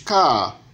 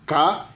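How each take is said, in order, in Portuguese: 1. O tom sobe e depois cai bruscamente. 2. O tom permanece nivelado na faixa média. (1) "o tom cadente" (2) "O tom médio"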